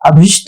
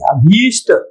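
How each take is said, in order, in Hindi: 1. दूसरे अक्षर में ह्रस्व 'i' स्वर है। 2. दूसरे अक्षर में दीर्घ 'ee' स्वर है। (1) "अभिष्ट नहीं है" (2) "ये सही है"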